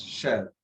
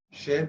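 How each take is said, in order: First: CHER with an open E, as in "air"; feminine chère. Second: First CHER with a closed "ay" sound; masculine cher. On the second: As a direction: say CHER with a tight E as the masculine form. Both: Shown as a demonstration. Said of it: "cher becomes cher".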